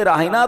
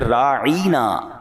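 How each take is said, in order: First: The word is said plainly without stretching. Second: The word is stretched with an added ya sound. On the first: Have regard for us. "लफ्ज राहिना तो वो भी कहते थे" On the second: It means shepherd, as an insult. "या लगा देते और लंबा कर देते उसको"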